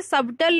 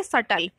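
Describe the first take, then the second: First: सबटल with the b sounded, the wrong way; wrong pronunciation. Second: सटल with a silent b, said as sa-tal; correct pronunciation. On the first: Teacher shows students the wrong way, b sounded. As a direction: say सबटल pronouncing the silent b. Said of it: "इसे सबटल नहीं पढ़ते". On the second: Teacher gives students the right way, b silent. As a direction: say सटल without any b sound. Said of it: "बी जो है ये silent होता है". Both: Shown as a demonstration.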